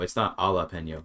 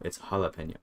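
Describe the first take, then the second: First: The J is not pronounced as an H. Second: The J is pronounced as an H sound. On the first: The speaker calls it wrong. "It's not" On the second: The speaker calls it right. "It's an H"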